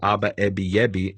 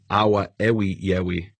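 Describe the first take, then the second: First: The middle consonants are pronounced as B. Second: The middle consonants are pronounced as W. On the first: This is the form actually used. "he replaced the V with a B" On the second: This is the form that would be expected otherwise. "it would have been"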